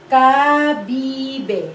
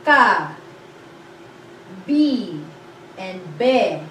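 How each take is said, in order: First: Kabibe said as one word, ka-BI-be falling; blended word. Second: Ka, bi, be spaced apart with pauses; syllable by syllable. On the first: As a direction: join the three into Kabibe. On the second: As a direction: break it into Ka, bi, be. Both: Shown as a demonstration. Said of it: "combine three syllables".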